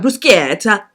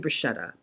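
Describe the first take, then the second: First: The word is pronounced the Italian way. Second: The word is pronounced the English way. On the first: The speaker calls it wrong. "How dumb am I going to sound?" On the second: The speaker calls it right. "I'm going to say bruschetta because I'm speaking English with an English accent"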